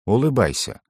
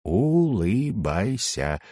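First: Said in the usual way. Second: Very slow, each syllable stretched; through clenched teeth. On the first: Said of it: "на всякий случай произнёс я". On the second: A narrator's reading. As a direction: squeeze the order slowly through shut teeth. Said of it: "процедил я сквозь сжатые зубы". (медленно процедить сквозь зубы)

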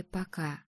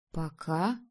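First: «пока» тихо, с падением тона; закончить тихим нисходящим «пока»; тихая оговорка. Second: «Пока» с вопросительным подъёмом тона; переспросить негромко, «Пока» вверх. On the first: Подруга осторожно заканчивает оговоркой. («пока» тихо, утвердительно вниз) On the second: Героиня переспрашивает слово подруги. («Пока» тихо, вопросительно вверх) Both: A narrator's reading.

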